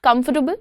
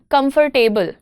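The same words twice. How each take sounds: First: The third syllable is short and reduced. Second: The third syllable is stretched and stressed.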